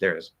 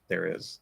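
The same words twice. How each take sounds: First: It is said quickly and run together. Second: It is said slowly and carefully.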